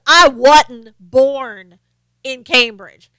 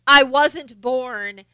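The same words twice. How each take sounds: First: Loud, very drawn-out Southern drawl; exaggerated slow Southern accent; mock Southern accent. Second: Slow drawled Southern vowels; mock Southern drawl. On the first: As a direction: mimic a politician's fake Southern twang, stretching each word. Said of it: "get on a Southern accent". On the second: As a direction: stretch it like a put-on drawl. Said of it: "she doesn't say".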